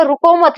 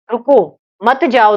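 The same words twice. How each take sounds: First: रुको मत as one high phrase, no break; मत joined to रुको. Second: रुको, short break, slow मत जाओ; pause after रुको. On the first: Teacher explaining "don't stop", मत joined to रुको. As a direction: run मत straight on from रुको. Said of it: "यहाँ पर रुकना नहीं है". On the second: Teacher explaining "don't go", pause after रुको. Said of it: "तुम जाना मत". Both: Shown as a demonstration.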